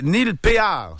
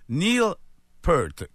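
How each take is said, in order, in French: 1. Le nom se prononce à la française, pay-ar. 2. Le nom rime avec le mot pearl. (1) "ça ferait en français, c'est écrit Péard" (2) "comme une pearl, comme une perle"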